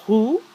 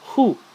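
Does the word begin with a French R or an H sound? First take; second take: French R; H sound. First: It begins with a French throaty R sound. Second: It begins with a breathy H sound. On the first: "instead of saying roux" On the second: "say it like it's an H"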